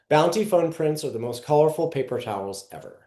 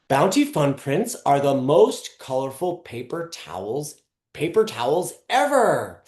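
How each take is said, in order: First: It is read plainly, with no particular attitude. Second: It is read in an upbeat, lively way.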